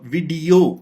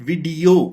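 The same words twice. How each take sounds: First: The second syllable is stressed and drawn out. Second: The same.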